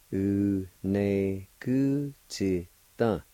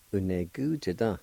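First: Very slow, each syllable held apart; syllable-by-syllable pronunciation. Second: Said in the usual way. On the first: Shown as a demonstration. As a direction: stretch out every syllable of the word. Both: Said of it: "it's pronounced like this".

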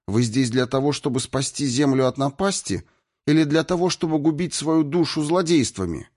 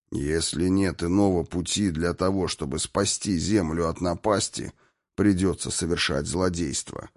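First: Raised, higher-pitched reproachful question; indignant challenge. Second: Restrained, tight-lipped retort; through gritted teeth. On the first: Irina intervenes to stop the torture, indignant high challenge. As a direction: challenge them, lifting the pitch throughout. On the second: Destroyer answers Irina's reproach, through gritted teeth. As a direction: force it out between the teeth, controlled. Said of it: "процедил сквозь зубы губитель". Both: A narrator's reading.

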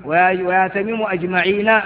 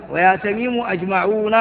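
First: أجمعين read with the ending -īn; accusative ending. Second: أجمعون read with the ending -ūn; nominative ending. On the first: Teacher reads the accusative form for the class, ending -īn. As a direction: say "أجمعين" with a long i before the final n. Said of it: "تبعه بالنصب". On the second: Teacher reads the nominative form for the class, ending -ūn. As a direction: say "أجمعون" with a long u before the final n. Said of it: "هذا بالرفع". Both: Shown as a demonstration.

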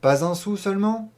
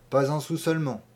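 First: Higher, louder "seulement" rising in disbelief; incredulous question. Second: Said in the usual way. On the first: A narrator's reading. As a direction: press him, doubting "seulement". ("seulement" plus haut et plus fort, incrédule)

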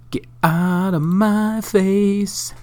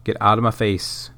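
First: High, slow, drawn-out goofy voice; silly high voice. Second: Said in the usual way. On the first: Pretend. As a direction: stretch it out in a squeaky cartoon voice. Repeats the phrase in a silly voice.

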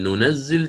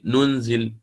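First: ننزل as nunazzil with a doubled z; ننزل stressing a doubled z; with shadda. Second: ننزل as nunzil with a single z; ننزل said lightly with a silent n; light reading. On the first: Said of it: "بالتشديد". (ننزل بتشديد الزاي) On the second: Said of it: "قرأها بالتخفيف". (ننزل بالتخفيف وإسكان النون) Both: Shown as a demonstration.

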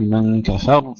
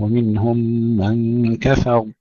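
First: كفر with a pushed ف and doubled ر; wrongly doubled ra. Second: Slow recitation, كفر ending on a single ر; correct undoubled ra. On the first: Teacher shows students the mistake, doubled ra. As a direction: shove the ف so the ر of كفر comes out doubled. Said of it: "ولا نقول من كفر". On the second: Teacher repeats the verse correctly, undoubled ra. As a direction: stretch من, let كفر close without pushing the ف. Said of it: "لا ندفع الفاء حتى لا نشدد الراء". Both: Shown as a demonstration.

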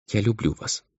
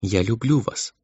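First: Soft, high young girl's voice, lightly voiced; quiet and tender, a timid first confession. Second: Soft, high girlish voice, lightly voiced; gently repeating her confession, tender; crystal tender voice. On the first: Girl confesses love to the half-demon, soft and tender. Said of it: "и сказала". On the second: Girl repeats her love to Emil, tender and soft. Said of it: "своим хрустальным нежным голоском". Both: A narrator's reading.

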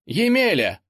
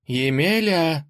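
First: Second call, much higher and louder; зовёт громче. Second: Calling out slowly, higher; зовёт издалека. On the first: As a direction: call again more urgently. (настойчивый громкий оклик) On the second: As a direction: call his name across the field. (громкий оклик) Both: A narrator's reading. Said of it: "позвала Василиса".

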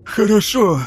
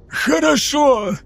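First: Said in the usual way. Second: Much higher, very slow, hoarse gasp; wheezed. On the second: A narrator's reading. Choking lieutenant finally gives in, wheezing. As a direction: gasp out surrender. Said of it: "прохрипел Паката".

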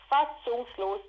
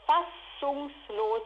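First: Said in the usual way. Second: Fassungslos stretched very slowly, each syllable held; drawn-out word. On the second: Real, not acted. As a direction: let fassungslos hang slowly in disbelief. Word repeated, first drawn out.

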